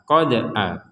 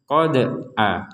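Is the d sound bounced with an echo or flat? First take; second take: bounced; bounced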